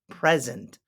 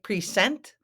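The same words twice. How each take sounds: First: The middle consonant is a buzzing Z sound. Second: The middle consonant is a hissing S sound. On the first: The speaker calls it right. "We pronounce it present, like the S is a Z" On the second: The speaker calls it wrong. "it looks like present, but it's not"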